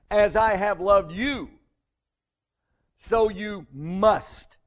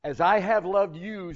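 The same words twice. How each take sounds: First: "As I have loved you, so you must" slowed right down and pressed; deliberate, weighty emphasis on "As I have loved you, so you must"; emphatic. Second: Said in the usual way. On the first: Shown as a demonstration. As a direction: lean hard on every word, "so you must" stretched out. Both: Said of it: "He's very emphatic on this point".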